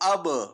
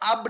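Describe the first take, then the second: First: The final b is released with a bouncing echo. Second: The final b stops flat without any echo. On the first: The speaker calls it right. "झटके या इसको यानी जुम्बिश के साथ लौटती हुई आवाज आनी चाहिए" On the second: The speaker calls it wrong. "अब नहीं पढ़ेंगे"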